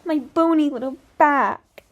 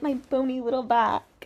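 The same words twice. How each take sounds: First: Higher, louder, slow mock singer voice; exaggerated mocking imitation. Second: Lightly put-on singer voice; a hint of mimicry of the singer; mocking imitation. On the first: Commentator mimicking the singer's little turn, loud hammed-up mockery. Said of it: "She's like". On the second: Commentator mimicking the singer's little turn, lightly mocking. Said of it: "she does a little turn".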